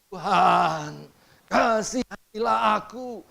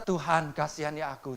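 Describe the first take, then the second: First: It is said in a wailing, lamenting plea. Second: It is said plainly, without lament.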